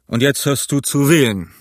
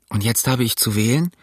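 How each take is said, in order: First: Firm statement, falling on "wählen"; firm echo. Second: Low question rising on "wählen". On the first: Silver answers that Jim must choose, firm. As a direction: hand the question back as a verdict, "wählen" brought down. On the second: Jim asks Silver if he must choose, questioning. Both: A narrator's reading.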